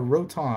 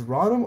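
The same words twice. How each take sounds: First: Rotom as ROH-tom, long o; crisp t in Rotom, "roh-TOM"; speaker's preferred pronunciation. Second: First syllable of Rotom rhymes with "spa"; alternative pronunciation. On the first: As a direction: pronounce Rotom as "Ro" plus "Tom". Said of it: "say, like, Ro, and then you say Tom". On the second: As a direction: pronounce Rotom "RAH-dum", open first vowel. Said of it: "I don't know if it's Rotom or Rotom". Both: Shown as a demonstration.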